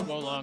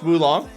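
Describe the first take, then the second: First: The first syllable sounds like 'whoa'. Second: The first syllable sounds like 'woo'. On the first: The speaker calls it right. "is it actually pronounced Wolong?" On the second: The speaker calls it wrong. "I've been saying it wrong"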